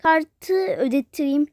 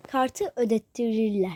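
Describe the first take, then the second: First: Said in the usual way. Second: Lower, softer repeat of "Kartı ödettireyim"; quieter repeat. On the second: Pretend. Repeating to himself in a low voice while paying by card. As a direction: say "Kartı ödettireyim" again, dropping the voice. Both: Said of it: "Ee, şey".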